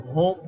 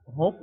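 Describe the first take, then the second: First: હોપ with a long, held o sound; long vowel hope. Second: હોપ with a short, quick o sound; short vowel hop. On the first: Teacher contrasting the long હોપ for students, held vowel. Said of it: "લાંબો ઉચ્ચાર પણ". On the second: Teacher contrasting the short હોપ for students, brief vowel. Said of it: "હ નો ટૂંકો ઉચ્ચાર". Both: Shown as a demonstration.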